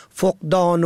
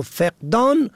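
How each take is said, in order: First: فقدان said foqdān, short o after f; فقدان as foq-dān, rounded first vowel; foqdan with o. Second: فقدان said feqdān, short e after f; فقدان as feq-dān, front first vowel; feqdan with e. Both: Shown as a demonstration. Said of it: "به هر دو صورت فقدان و فقدان درست است".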